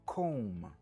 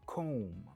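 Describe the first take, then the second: The two takes are said the same way.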